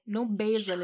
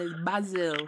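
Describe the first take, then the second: First: "Basil" with a long a, BAY-zil; wrong way. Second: "Basil" with a short a, BAH-zil; right way. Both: Shown as a demonstration.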